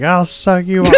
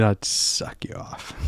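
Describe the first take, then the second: First: Shouted mocking line; loud quote. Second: Whispered quote. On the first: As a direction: bark it out loud. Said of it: "you were like". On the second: Retold or imitated. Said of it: "going up and down the line saying".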